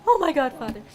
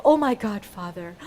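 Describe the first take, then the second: First: Lightly dramatic, amused exclamation; mock lament. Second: Said in the usual way. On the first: Shown as a demonstration. English version of how they say it, mock dramatic. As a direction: exclaim it in the Korean manner, half laughing. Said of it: "This is how they say it". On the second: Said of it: "means oh my God".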